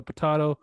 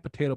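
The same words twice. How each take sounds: First: "potato" with an open AH in the middle. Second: Said in the usual way. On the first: Shown as a demonstration. Offering the other way to say it, "potato" as puh-TAH-toh. Second, contrasting pronunciation of potato.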